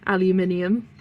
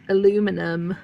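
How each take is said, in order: First: It is said with five syllables, ending -nium. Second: It is said with four syllables, ending -num. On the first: "I'd still always try and say aluminium" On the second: "the way Americans pronounce that"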